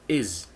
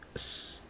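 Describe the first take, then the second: First: The word is said with a full vowel. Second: The word is reduced to a bare consonant. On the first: "In a strong form, we pronounce is" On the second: "in a weak form, we pronounce s or z"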